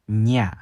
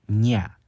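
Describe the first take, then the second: Both takes have the same delivery.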